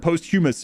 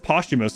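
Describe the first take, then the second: First: It begins like the word post-human. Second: It begins with a pos-chu sound. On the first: The speaker calls it wrong. "I read it as post-human or posthumous" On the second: The speaker calls it right. "then I heard it as posthumous"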